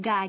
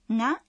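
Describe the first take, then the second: First: The g is a hard, non-nasal stop. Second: The g is pronounced through the nose.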